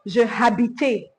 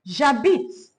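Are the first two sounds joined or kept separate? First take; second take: separate; joined. First: Two separate syllables, je then habite. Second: The j joins straight onto habite. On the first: The speaker calls it wrong. "many English speakers will say je habite. That's not the right way to say it" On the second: The speaker calls it right. "You say j'habite"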